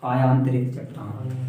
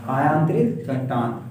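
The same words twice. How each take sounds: First: Drawn-out, syllable by syllable for the class; slow dictation. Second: Drawn-out term, repeated for pupils to copy; slow dictation. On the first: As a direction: stretch the term so pupils can repeat it. Teacher dictates term to class. (धीमे-धीमे खींचकर बोलना) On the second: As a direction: say it slowly so the class can echo. Teacher repeats term for class. (धीमे, खींचकर दोहराना) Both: Shown as a demonstration.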